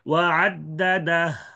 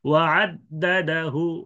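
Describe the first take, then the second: First: The phrase ends on h with no vowel. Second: A faint short u is heard after the h. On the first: "সাকিন" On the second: "রুম"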